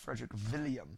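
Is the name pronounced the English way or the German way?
German. The name is said with German pronunciation.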